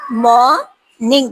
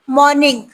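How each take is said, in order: First: مارننگ drawn out slowly as "mo-ning", the r left silent; slow pronunciation demo. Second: Said in the usual way. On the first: Shown as a demonstration. Teacher slowly modelling مارننگ for the class, r silent. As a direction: stretch out مارننگ slowly and drop the r. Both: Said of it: "usually یہ silent ہوتا ہے".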